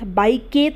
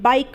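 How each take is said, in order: First: The word ends with an extra vowel sound. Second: The word ends with no vowel sound after k. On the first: The speaker calls it wrong. "बाइक के तो नहीं बोल रहे" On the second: The speaker calls it right. "बाइक बोल रहे हैं"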